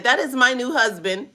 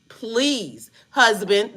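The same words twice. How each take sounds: First: Said in the usual way. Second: A slightly drawn-out, pleading "husband"; mock pleading to her new husband. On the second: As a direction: beg him a little as you say "husband". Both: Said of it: "let me stop saying it like that".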